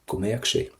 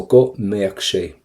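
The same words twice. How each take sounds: First: Said in the usual way. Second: Careful teacher modelling; slow model phrase. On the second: Shown as a demonstration. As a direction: go mbeadh sé said slowly with stress on go. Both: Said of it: "the word go means that".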